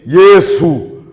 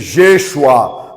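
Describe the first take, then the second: First: The name is said with a Hindi pronunciation. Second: The name is said with a Hebrew pronunciation. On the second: "na pronúncia hebraica"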